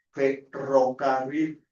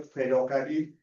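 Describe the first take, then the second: First: FERROCARRIL said slowly, syllable by syllable, with trilled RR; clear rolled R. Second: FERROCARRIL with the trilled RR lost, as if tongue-tied; imitated tongue-tie. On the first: Shown as a demonstration. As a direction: sound out the RR in "ferrocarril". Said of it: "fonemas fricativos, R". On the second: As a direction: mimic a tongue-tied child failing the R in "ferrocarril". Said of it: "Un niño que tiene frenillo".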